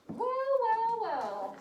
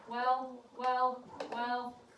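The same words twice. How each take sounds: First: It is said with lively, varied expression. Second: It is said flat and monotone, like a robot. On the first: The speaker calls it right. "she used such good expression in her reading" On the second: The speaker calls it wrong. "I sound like a robot"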